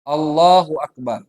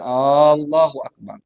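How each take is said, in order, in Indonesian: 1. Vokal awal pada kata Allah dibaca pendek. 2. Vokal awal pada kata Allah dibaca panjang. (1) "Makanya alifnya tidak boleh dipanjangkan"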